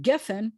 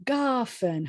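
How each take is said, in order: First: Geffen with short "eh" in both syllables, GEH-fen; E-E vowels. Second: Gafen with a long open "ah", GAH-fen, pitched higher and falling; A vowel at sentence end. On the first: Teacher giving the ordinary word for vine, Geffen with "eh". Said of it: "instead of saying Geffen". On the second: Teacher showing the flowing end-of-sentence form, Gafen with long "ah". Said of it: "it says". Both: Shown as a demonstration.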